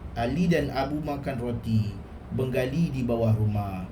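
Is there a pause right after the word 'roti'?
yes. There is a pause after 'roti'. Two people ate bread while a Bengali was under the house. The speaker calls it wrong.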